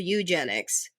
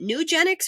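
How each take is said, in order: First: The word begins with a 'yoo' sound. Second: The word begins with a 'noo' sound. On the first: The speaker calls it right. "It's E U" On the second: The speaker calls it wrong. "I always call it new, and I always get corrected"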